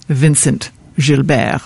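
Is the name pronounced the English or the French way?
English. The name is pronounced the English way.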